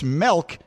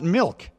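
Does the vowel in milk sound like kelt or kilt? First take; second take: kelt; kilt. First: The vowel sounds like the e in kelt. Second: The vowel sounds like the i in kilt. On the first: The speaker calls it wrong. "why is it a kilt instead of a kelt if it's milk" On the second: The speaker calls it right. "and not milk"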